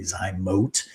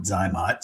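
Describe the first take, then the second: First: Zymote with a long O in the last syllable; correct pronunciation. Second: Zymot with a short O in the last syllable; habitual pronunciation. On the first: Doctor telling viewers the proper device name, correct pronunciation. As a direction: end Zymote like "moat". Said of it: "I think the correct pronunciation". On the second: Doctor admitting to viewers how they always say it, habitual pronunciation. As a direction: end Zymot like "mott". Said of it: "I always call it Zymot". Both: Shown as a demonstration.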